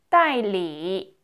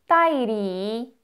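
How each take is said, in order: No difference in how they are said.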